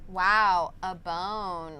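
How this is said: It is said in a sarcastic tone.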